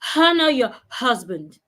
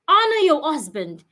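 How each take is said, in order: First: Honor starts with an added h sound. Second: Honor starts with a vowel, no h sound. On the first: The speaker calls it wrong. "not honor your husband" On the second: The speaker calls it right.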